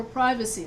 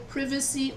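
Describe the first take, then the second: First: PRIVACY with a long i, as in "private"; alternative pronunciation. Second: PRIVACY with a short i, as in "privet"; alternative pronunciation. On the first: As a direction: say PRIVACY as PRY-vuh-see. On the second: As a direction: say PRIVACY as PRIV-uh-see. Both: Shown as a demonstration. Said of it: "that's for pronunciation".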